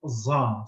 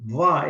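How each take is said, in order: First: It is said with a z-like sound. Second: It is said with a dh-like sound. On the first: This is how Egyptians say it. The speaker calls it wrong. "the Egyptians would say it's just za, something like Z plus something" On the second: This is the classical pronunciation. The speaker calls it right. "is the right way to pronounce it"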